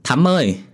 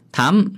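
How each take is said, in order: First: High raised call for the maid. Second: Higher, sharper call with a rise; calling out louder. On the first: Mistress calling her maid across the dark house, high and raised. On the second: Mistress calling her maid again, higher and more insistent. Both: Acted. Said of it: "mới vừa kêu lên một hai tiếng".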